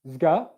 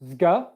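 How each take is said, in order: No difference in how they are said.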